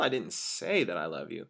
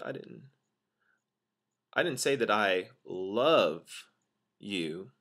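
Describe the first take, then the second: First: The word say carries the main stress. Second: The word love carries the main stress. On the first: It may have been written or passed on instead. "Putting that emphasis on say" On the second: A different feeling, like liking, may have been expressed. "I could have said I liked you"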